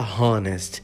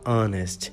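First: The word begins with an audible h sound. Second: The word begins with a vowel sound. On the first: The speaker calls it wrong. "Você não fala honest" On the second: The speaker calls it right. "você fala honest"

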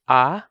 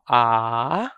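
First: The vowel is held for a normal length. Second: The vowel is stretched out and held longer. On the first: "We have the normal pronunciation" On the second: "the long vowel pronunciation... just extend the vowel to make the sound longer"

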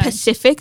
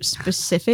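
First: The word begins with a plain 'p' sound. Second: The word begins with an 'sp' sound. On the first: The speaker calls it wrong. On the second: The speaker calls it right.

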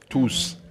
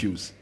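First: The syllable begins with a clear t sound. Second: The syllable begins with a vowel, no t. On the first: The speaker calls it right. "Tuse, not use. You pronounce it obtuse" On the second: The speaker calls it wrong. "not use"

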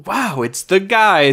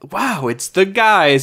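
First: It sounds genuinely excited. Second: It sounds genuinely excited.

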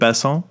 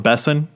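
First: The name is said in a non-American way. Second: The name is said the American way.

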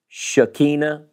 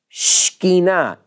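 First: The word is said with three full syllables. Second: The first syllables merge into two syllables. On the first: The speaker calls it wrong. "We say it in the South with three syllables" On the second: The speaker calls it right. "In Hebrew, it's really Shekinah"

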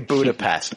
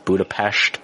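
First: It is said with an English pronunciation. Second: It is said with a Hungarian pronunciation. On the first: "I say Budapest" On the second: "She's saying it with the Hungarian pronunciation"

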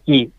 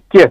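First: The word ends in a clear 'ee' vowel. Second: The word ends without a clear 'ee' vowel. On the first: The speaker calls it wrong. "Ma in Carabana non è chi" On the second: The speaker calls it right. "è chi. Per rendere questo suono Q, la I non la puoi mettere"

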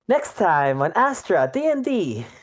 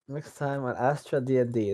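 First: It is said in a young, happy character voice. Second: It is said in the speaker's ordinary voice.

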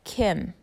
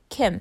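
First: The name is stretched out longer. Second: The name is said quickly and short.

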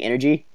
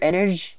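First: The word ends with a clear 'ee' sound. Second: The word is said without its final 'ee' sound. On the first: "instead of saying energy" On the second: "he uses the word energy a lot, like without the Y"

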